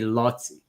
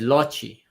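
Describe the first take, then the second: First: The middle consonant is a clear 'ts' sound. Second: The middle consonant has no 'ts' sound. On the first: The speaker calls it right. "it should say Lotzi" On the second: The speaker calls it wrong. "the A I read, read Loci"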